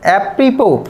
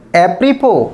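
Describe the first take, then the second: First: The final s is silent. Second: The same.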